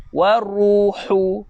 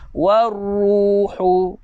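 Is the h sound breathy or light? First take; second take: breathy; breathy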